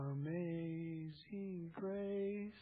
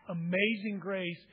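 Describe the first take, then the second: First: Soft, slow, half-hearted mumble of the hymn title; timid mumble. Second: Said in the usual way. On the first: Shown as a demonstration. Pastor showing the congregation how not to sing it, a soft slow mumble. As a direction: say it like you barely care, drawn out and hushed. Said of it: "We should almost be yelling it". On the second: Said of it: "it should never be".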